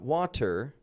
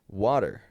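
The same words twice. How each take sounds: First: The t is a clear British t sound. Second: The t is a soft, light d-like flap.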